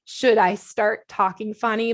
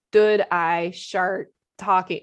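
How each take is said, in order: First: Said in the usual way. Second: Very slow, mushy imitation of "Should I start talking"; slurred words. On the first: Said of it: "trying so hard not to slur". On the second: Wife mimics groggy husband on video, slow and garbled. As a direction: slur "start" toward "shart", dragging each word out. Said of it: "it was all messed up".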